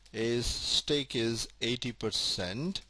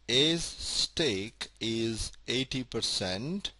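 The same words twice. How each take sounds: The two takes are said the same way.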